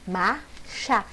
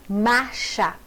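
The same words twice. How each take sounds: First: Marcha split into mar and cha with a gap; syllable by syllable. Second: Said in the usual way. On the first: Shown as a demonstration. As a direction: pause between the two syllables of marcha. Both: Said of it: "a separação de sons".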